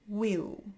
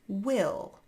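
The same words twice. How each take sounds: First: It ends with an ow vowel instead. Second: It ends with a dark L sound.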